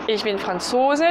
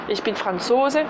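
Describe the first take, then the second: Both takes have the same delivery.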